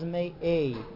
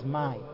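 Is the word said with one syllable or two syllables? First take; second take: two syllables; one syllable. First: The word is said with two syllables. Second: The word is said with one syllable. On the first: It asks from where something comes. "When it's from where, it is Me'ei" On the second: It asks what something is. "When the question is what, then it is my"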